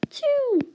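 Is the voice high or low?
high. It is said in a high-pitched voice. It counts the numerator, which sits at the top. "I'm going to count those in a high voice"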